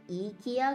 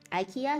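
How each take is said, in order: First: The first vowel sounds like 'ee'. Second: The first vowel sounds like 'eye'. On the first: "the I has a E sounding quality to it" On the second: "is that how you pronounce it?"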